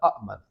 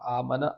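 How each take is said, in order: First: It begins with two separate glottal-stop syllables. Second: It begins with one long 'aa' vowel. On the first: "आमना असल में अमन था ना" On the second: "खड़ी ज़बर के साथ अ, प्रोनाउंस किया जाता है"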